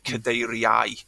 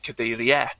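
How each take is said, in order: First: The ending keeps its full standard diphthong. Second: The ending is said in the northeast way. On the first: "you'd say cadeiriau" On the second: "northeast and parts of the southwest, then they'd say"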